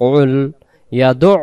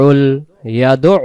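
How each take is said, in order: No difference in how they are said.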